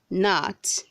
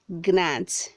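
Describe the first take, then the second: First: The word starts with an N sound, G silent. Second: The word starts with a hard G sound. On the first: The speaker calls it right. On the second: The speaker calls it wrong.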